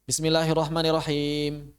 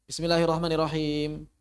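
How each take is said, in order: The two takes are said the same way.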